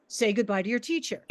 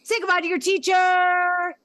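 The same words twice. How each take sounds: First: Said in the usual way. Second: "Say goodbye to your teacher" held level, higher and louder; "teacher" not dropping, level end; sustained inflection. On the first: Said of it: "I will utilize a sustained inflection". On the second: Shown as a demonstration. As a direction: sing it out on one held pitch. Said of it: "remain the same pitch, as in".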